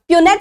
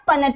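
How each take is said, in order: First: It is said like pyoo-net, with a y-glide. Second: It is said like puh-net, with a short vowel. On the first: "प्यूनेट square और पनेट square" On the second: "प्यूनेट square और पनेट square"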